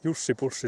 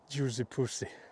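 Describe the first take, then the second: First: The first word has a short Finnish vowel. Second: The first word sounds like English 'juicy'. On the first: A Finn is saying the Finnish name. The speaker calls it right. "when you pronounce it in Finnish" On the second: A foreigner is saying the Finnish name. The speaker calls it wrong. "she pronounces like"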